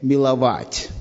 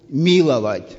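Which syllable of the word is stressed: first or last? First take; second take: last; first. First: The stress is on the last syllable. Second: The stress is on the first syllable. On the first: Showing tender affection when feelings burn. "Или же поменять ударение «миловать»" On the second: Showing mercy to someone who does not deserve it. "когда я говорю «миловать», это понятно, что человек не заслуживает"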